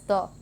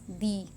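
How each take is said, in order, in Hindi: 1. इस शब्द पर बल नहीं है, और स्वर कमज़ोर 'uh' है। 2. इस शब्द पर बल है, और स्वर पूरा 'ee' है। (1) "it is unstressed as the" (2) "it is stressed as the"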